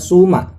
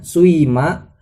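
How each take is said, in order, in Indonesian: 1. Vokal pertama adalah bunyi u murni. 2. Vokal pertama meluncur dari u ke i. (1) "bisa dhammah jadinya suma" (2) "bisa ismam jadinya suima"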